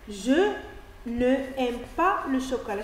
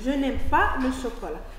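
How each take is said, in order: First: Ne is said as its own syllable before aime. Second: Ne loses its vowel and joins onto aime. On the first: The speaker calls it wrong. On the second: The speaker calls it right.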